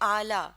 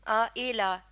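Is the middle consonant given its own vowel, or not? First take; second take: no vowel; own vowel. First: The middle consonant is vowelless, closing the first syllable. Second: The middle consonant carries its own separate vowel. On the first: The speaker calls it right. "हम कह रहे हैं आला" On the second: The speaker calls it wrong. "हम आ एला ऐसे नहीं कह रहे"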